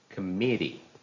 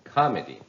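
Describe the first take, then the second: First: The stress is on the second syllable. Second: The stress is on the first syllable. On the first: The speaker calls it right. "So the stress is on the second syllable" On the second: The speaker calls it wrong. "if you put the stress on the first syllable? It would sound like comedy"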